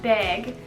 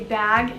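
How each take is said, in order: First: It has the vowel heard in bagel. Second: It has the common American vowel in bag.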